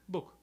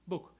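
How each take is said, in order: The two takes are said the same way.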